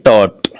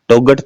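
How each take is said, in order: First: No g sound is heard in the middle. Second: A g sound is heard in the middle. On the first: The speaker calls it right. "वो silent है, बोलते हैं टॉट" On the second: The speaker calls it wrong. "टोगट तो नहीं बोलते"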